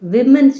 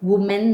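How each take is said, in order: First: The first vowel sounds like 'i' in 'sit'. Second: The first vowel sounds like 'u' in 'put'. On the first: The speaker calls it right. "વિમેન છે" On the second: The speaker calls it wrong. "વુમેન નથી"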